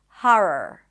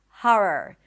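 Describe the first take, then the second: First: The first vowel is an open 'ah' sound. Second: The first vowel is an open 'ah' sound.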